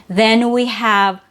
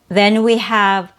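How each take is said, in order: No difference in how they are said.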